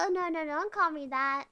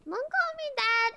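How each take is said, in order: First: Said in the usual way. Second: Much higher, pleading protest; whiny protest. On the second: Real, not acted. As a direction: whine it up high, offended. Repeats protest to teammate.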